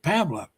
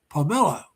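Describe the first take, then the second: First: It is said the American way. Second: It is said the Filipino way.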